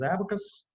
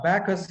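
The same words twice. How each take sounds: First: ABACUS with an open first 'a', "AB-uh-kus"; correct pronunciation. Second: ABACUS squashed, "a-BAA-kus"; wrong pronunciation. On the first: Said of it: "it is abacus". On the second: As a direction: mispronounce ABACUS with the weight off the first vowel. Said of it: "is wrong". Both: Shown as a demonstration.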